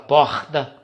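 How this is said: It is said in a Rio de Janeiro accent. "o carioca fala porta"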